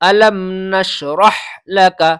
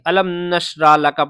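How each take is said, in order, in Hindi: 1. 'nashrah' की आख़िरी ह की आवाज़ बोली जाती है। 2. 'nashrah' की आख़िरी ह की आवाज़ छोड़ दी जाती है। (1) "तो ये हा निकलना चाहिए" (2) "इस हा को नहीं निकालते, इस हा को खत्म कर देते"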